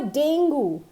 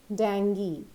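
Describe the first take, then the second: First: DENGUE as "DAYN-goo"; wrong pronunciation. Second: DENGUE as "DENG-gee"; correct pronunciation. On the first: Teacher shows the common error, dengue as "dayn-goo". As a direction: end dengue on an oo. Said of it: "It's never dengue". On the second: Teacher states what it always is, dengue as "deng-gee". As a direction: say dengue with an ee ending. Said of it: "It is always dengue". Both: Shown as a demonstration.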